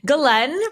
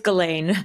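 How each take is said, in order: First: The name is pronounced the French way. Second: The name is pronounced the American way. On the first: "if you want to say it the French way" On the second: "if you say it the American way"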